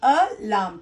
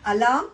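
First: Alarm broken into "a", then "larm"; split into syllables. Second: Said in the usual way. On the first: Shown as a demonstration. Teacher corrects students' wrong answer, dividing alarm into two syllables. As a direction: sound out both beats of alarm separately. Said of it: "Two syllables". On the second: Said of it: "Many of you have gone wrong".

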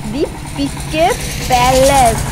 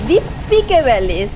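First: Halting, unsure first reading of দীপিকে প্যালেস; stumbling misreading. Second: দীপিকে প্যালেস said again slowly and deliberately; corrected reading. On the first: Vlogger squinting at a restaurant sign, reading it out falteringly. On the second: Vlogger correcting her misread of the restaurant name, slow and careful. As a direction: carefully repeat দীপিকে প্যালেস after the stumble. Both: Real, not acted. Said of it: "উচ্চারণ হচ্ছে না".

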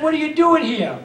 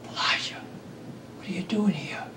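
First: Raised, higher voice, almost a rebuke; rebuking question. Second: Soft unvoiced whisper, much quieter; gentle whisper. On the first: Acted. The Lord confronting Elijah in the cave, raised stern voice. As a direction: call him out sternly from above. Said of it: "Not a rebuke". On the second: God gently asking Elijah in the cave, whispered. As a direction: whisper it tenderly, like God calling. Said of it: "there came a gentle whisper".

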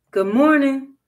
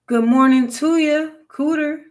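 First: Moderately raised, higher greeting; loud, not too loud. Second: Higher, raised-voice greeting; louder call. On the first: Jim calls to the hidden cooter, loud but restrained. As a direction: call out, holding back a little. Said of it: "loud, but not too loud". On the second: Jim tries the silent cooter, calling high and louder. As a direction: call out louder to someone hiding. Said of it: "a little bit louder this time". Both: A narrator's reading.

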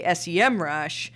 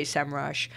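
First: S E M rush with each letter named, "ess-ee-em"; spelled-out letters. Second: SEMrush with SEM as one syllable, "sem"; pronounced as one word. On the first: Podcast host recalling the switch, S E M rush said letter by letter. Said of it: "got convinced to say S E M rush". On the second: Podcast host recalling the old way to say the brand, SEMrush said "sem-rush". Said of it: "I used to say SEMrush". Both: Shown as a demonstration.

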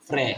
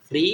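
First: "ফ্রে" with an e vowel; PRE read as "pre". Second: "ফ্রি" with an ee vowel; PRE read as "pri". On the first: Teacher shows second reading of PRE, e sound in "ফ্রে". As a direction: say "ফ্রে", ending in e as in "present". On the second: Teacher shows first reading of PRE, ee sound in "ফ্রি". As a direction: say "ফ্রি", ending in a bright ee vowel. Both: Shown as a demonstration. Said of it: "কি হবে?".

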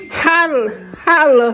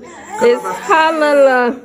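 First: "Holla, holla" read out as the toy says it; reading the toy's word. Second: "holla la" said slowly, stretching each syllable; slow patient correction of the toy's word. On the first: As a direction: give "holla" a quick falling sound, as printed. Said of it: "That says". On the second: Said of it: "they don't have that accent". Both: Shown as a demonstration.

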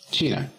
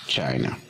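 First: "China" said the Spanish way, CHEE-na; Spanish pronunciation. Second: "China" said the English way, CHAI-na, with a falling end; English pronunciation. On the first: Teacher naming the country in Spanish first, Spanish pronunciation. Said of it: "En inglés decimos China". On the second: Teacher showing students the English name, English pronunciation. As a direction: say "China" in English, with an eye sound. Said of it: "En inglés decimos". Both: Shown as a demonstration.

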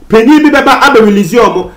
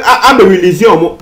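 First: Said in the usual way. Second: Laughing. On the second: Real, not acted. Laughs retelling police releasing robbers.

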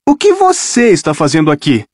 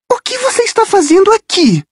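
First: Said in the usual way. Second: Voz aguda, surpresa de menina; voz de garota assustada. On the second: Acted. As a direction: agarra o ombro e pergunta, espantada. Rachel surprende Percy. (Rachel pergunta a Percy, surpresa e aguda)

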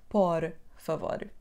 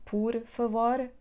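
First: "por favor" with an open "o" in "por", rising; the wrong way, open vowel; wrong pronunciation. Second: "por favor" with "por" said like "pur"; the right way, vowel closed to "u"; correct Portuguese pronunciation. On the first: Teacher shows the mistake to avoid. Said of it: "and not". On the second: Teacher shows the correct sound of "por". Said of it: "Please make it sound". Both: Shown as a demonstration.

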